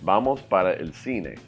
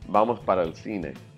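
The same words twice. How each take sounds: First: Every sound is pronounced clearly and separately. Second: Sounds are dropped and squished together. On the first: It sounds formal, like a newsreader. The speaker calls it wrong. "it sounds formal, like a newscaster speaking" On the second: It sounds like natural native speech. The speaker calls it right. "A native would say something closer to"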